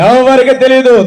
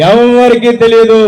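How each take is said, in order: Both takes have the same delivery.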